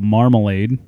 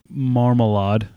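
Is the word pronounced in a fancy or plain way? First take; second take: plain; fancy. First: The word is said in a plain everyday way. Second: The word is said in a fancy, posh-sounding way.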